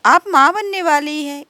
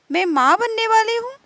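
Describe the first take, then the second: First: Said in the usual way. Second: Higher, rising amazed question; can't believe the news; surprised. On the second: Acted. Meena repeats the news, amazed. (हैरानी से ऊँचा उठता सवाल)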